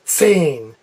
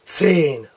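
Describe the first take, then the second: First: The word begins with a hissing ts sound. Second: The same.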